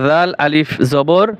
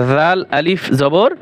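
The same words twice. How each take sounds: The two takes are said the same way.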